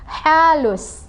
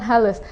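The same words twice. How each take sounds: First: Halus with a light breathy mid-throat H; soft H in halus. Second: Halus with a plain Indonesian H; wrong H in halus. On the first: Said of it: "dia halus". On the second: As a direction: say halus with an ordinary H, not the throat one. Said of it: "bukan halus". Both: Shown as a demonstration.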